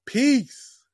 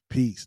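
First: High, falling drawn-out sign-off; showy sign-off. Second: Short, low sign-off; understated sign-off. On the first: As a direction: pitch it way up and let it drop. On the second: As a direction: drop it quick and low, matter-of-fact. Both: Shown as a demonstration. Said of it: "That's how you do it".

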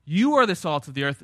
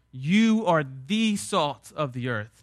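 First: "You" hit firmly at the front; stress on YOU. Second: "the" said as a full, weighted "thee", slowly; slow right down and lean on "the"; stress on THE. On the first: Preacher showing the Greek emphasis, stress on "You". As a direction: lean on "You" as the emphatic word. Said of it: "you" is emphatic". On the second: Preacher showing it is not just a salt, "the" stressed. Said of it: "again, it's emphatic". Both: Shown as a demonstration.

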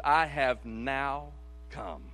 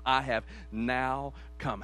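First: Slow reading of "I have now come"; stress on NOW. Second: Slow, weighty "I have now come" with "now" leaned on; stress on NOW. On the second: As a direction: dwell on "now" as the point. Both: Shown as a demonstration. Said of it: "Circle that".

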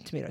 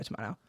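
First: "tomato" with MAY in the middle; American pronunciation. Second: "tomato" with MAH in the middle; British pronunciation. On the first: Host unsure of a city's name, saying "tomato" as tuh-MAY-toe. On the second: Host shrugging off a pronunciation, "tomato" as tuh-MAH-toe. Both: Shown as a demonstration. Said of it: "it's tomato, tomato".

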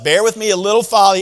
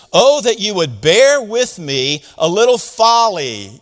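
First: Fast, teasing jab; needling paraphrase. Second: Slow scripture reading. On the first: Paul needling the Corinthians, fast and teasing. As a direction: rattle it off like a playful poke. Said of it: "I'm gonna needle you again". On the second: Pastor reading Paul's line to the congregation, slow and deliberate. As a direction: read slowly and deliberately. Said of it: "You know what he's saying there?". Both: Shown as a demonstration.

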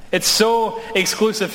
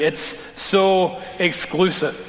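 First: A higher "It's so exclusive" with "so" popped up; mock indignation. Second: A slow, drawn-out "It's so exclusive" with "so" leaned on; mock complaint. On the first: Pastor echoing the critics, higher and mock-outraged. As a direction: repeat the complaint, pitched up and exasperated. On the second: Pastor voicing the critics' complaint, slow and weary. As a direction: mimic a critic, dragging out "so". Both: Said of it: "I've been told that's exactly the problem".

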